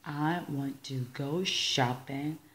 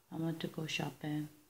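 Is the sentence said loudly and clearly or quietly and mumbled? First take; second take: loudly clearly; quietly mumbled. First: It is said loudly with each word distinct. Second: It is said quietly and mumbled together. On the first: The speaker calls it right. "후자라는 겁니다" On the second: The speaker calls it wrong. "이게 낫겠어요?"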